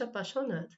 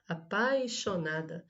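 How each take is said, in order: First: The i sound is dropped in quick speech. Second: The i sound in the second syllable is pronounced. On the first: "Só que ela falou rapidamente" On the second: "Aqui precisaria de um i depois do, do, do a"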